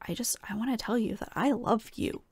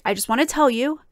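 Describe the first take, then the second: First: Soft whisper of the singer's confession; whispered quote. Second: Said in the usual way. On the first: Retold or imitated. To viewers, echoing the singer's words in a whisper. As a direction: whisper it like a secret longing.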